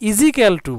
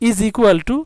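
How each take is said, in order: First: The first words are run together into one. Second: Each word is said separately and clearly.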